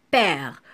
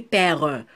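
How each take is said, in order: First: Said in the usual way. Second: "père" as two syllables, with an added "euh" at the end; "père" with its last E voiced; final E sounded. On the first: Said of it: "on a dit père". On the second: Shown as a demonstration. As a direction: pronounce the silent E of PÈRE, like "pè-reu". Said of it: "On n'a pas dit père".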